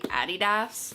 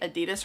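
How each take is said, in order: First: It is said the original, non-American way. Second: It is said the common American way. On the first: The speaker calls it right. "It's actually technically Adidas" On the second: The speaker calls it wrong. "Americans say Adidas wrong"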